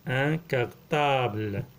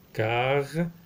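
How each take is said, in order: First: Said in the usual way. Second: Syllable by syllable. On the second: Shown as a demonstration. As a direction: sound out "Cartable" with gaps between syllables. Teacher sounds out word by syllables.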